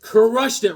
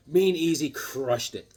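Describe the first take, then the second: First: Excited repeat. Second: Said in the usual way. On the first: Real, not acted.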